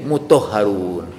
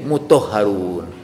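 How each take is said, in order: First: The 'ta' syllable merges into the next sound. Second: The 'ta' syllable merges into the next sound.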